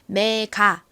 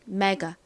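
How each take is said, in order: First: The final vowel is a full, clear 'ah'. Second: The final vowel is a weak, relaxed 'uh'. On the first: "메가 보다는" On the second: "힘 빠진 어에 가까운 소리"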